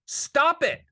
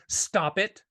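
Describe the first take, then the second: First: Louder stop it. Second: Said in the usual way. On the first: Real, not acted. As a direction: Stop it raised high and loud.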